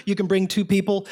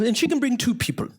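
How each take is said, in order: First: Said in the usual way. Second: Put-on high French-accented voice; Pierre. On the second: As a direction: play the French manager, pitched high. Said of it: "he was from France".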